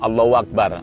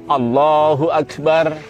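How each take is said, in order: First: The h in Allahu is barely heard. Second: The h in Allahu is clearly pronounced. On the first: The speaker calls it wrong. "H-nya kurang jelas ... ini kurang-kurang benar ya" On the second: The speaker calls it right. "yang benar adalah"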